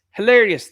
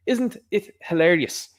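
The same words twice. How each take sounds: First: Higher, louder mock exclaim; sarcastic exclamation. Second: Slow, drawn-out sarcastic question; dry sarcasm. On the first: Vlogger echoing his own word, loud and mocking. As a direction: burst out with it in scorn. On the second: Acted. Vlogger mocking the court case, slow and sarcastic. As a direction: let the irony hang, slowly.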